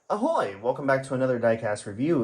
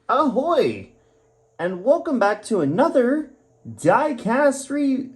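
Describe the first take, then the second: First: It is said in a calmer tone. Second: It is said in an overly excited tone.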